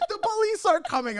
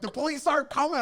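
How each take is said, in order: First: Very high-pitched group alarm; mock panic. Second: High, insistent rebuttal; exasperated correction. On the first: Everyone reacting to talk of police, mock panic. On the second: Retold or imitated. Storyteller correcting the panicked crowd, exasperated. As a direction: set them straight, pitch raised.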